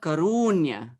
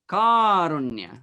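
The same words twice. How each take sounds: First: The stress falls on the second syllable. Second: The stress does not fall on the second syllable. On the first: The speaker calls it wrong. "not karunya" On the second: The speaker calls it right. "the next word is karunya"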